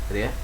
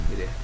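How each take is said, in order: Both takes have the same delivery.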